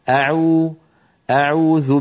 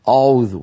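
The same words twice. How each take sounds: First: The opening glottal stop sounds light and thin. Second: The opening glottal stop sounds heavy and thick. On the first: The speaker calls it right. "لأن الهمزة لا تفخم لأنها مستفيلة" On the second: The speaker calls it wrong. "هكذا يقول أعوذ، فيفخم الهمزة"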